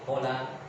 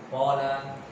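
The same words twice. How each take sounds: First: The first vowel is cut short. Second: The first vowel is held long. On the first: The speaker calls it wrong. "Antum buang hurufnya" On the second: The speaker calls it right. "ditambah alif"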